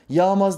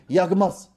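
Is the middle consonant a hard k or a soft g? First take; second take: soft g; hard k. First: The middle consonant is a soft, gliding g. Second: The middle consonant is a hard k sound. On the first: The speaker calls it wrong. "yağmaz değil" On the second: The speaker calls it right. "Bak yumuşak ye değil"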